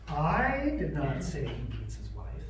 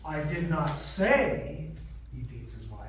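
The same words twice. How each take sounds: First: The stress falls on the word I. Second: The stress falls on the word say. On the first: Someone else said it. "But somebody else did" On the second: It was implied rather than said. "I implied it"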